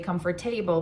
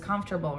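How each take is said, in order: First: The stress falls on the third syllable. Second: The stress falls on the first syllable. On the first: The speaker calls it wrong. "She does not say" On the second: The speaker calls it right. "but she says"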